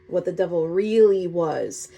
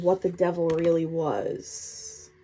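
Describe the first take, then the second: First: "really" stretched out and hit louder; stress on REALLY. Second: Said in the usual way. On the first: Real, not acted. Reader repeating her point to the viewer, "really" stressed. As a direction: lean hard on the word "really".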